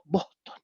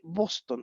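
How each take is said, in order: First: The S is swallowed into a breathy h. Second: The S is fully pronounced as a hiss.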